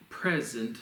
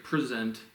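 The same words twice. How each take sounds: First: "present" as PREZ-ent, with open E; stress on first syllable. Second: "Present" as pre-ZENT, the verb; stress on second syllable. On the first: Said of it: "it's more like the E with the". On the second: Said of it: "like I'm giving you a show". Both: Shown as a demonstration.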